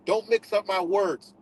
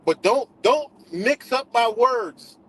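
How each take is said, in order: First: Said in the usual way. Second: Slow, higher, louder, leaning on "don't"; stress on don't. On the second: Real, not acted. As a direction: hammer each "don't" slowly as a warning. Insisting on not being misquoted.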